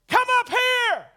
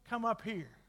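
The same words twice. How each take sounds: First: The phrase is shouted loudly and forcefully. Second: The phrase is said softly and calmly. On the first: The speaker calls it right. "Every time the Lord shouts" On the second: The speaker calls it wrong. "And He didn't say it like that"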